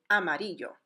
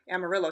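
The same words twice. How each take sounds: First: The double L is sounded like a Y. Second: The double L is sounded like an English L. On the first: The speaker calls it right. "The correct way to say that city name is actually Amarillo" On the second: The speaker calls it wrong. "the city in Texas called Amarillo"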